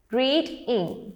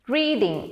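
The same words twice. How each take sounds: First: "reading" in two beats with a break between; broken into syllables. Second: Said in the usual way. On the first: Shown as a demonstration. Teacher showing learners the break in between, "reading" syllable by syllable. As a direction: split "reading" as read, then ing. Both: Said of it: "there is a break in between".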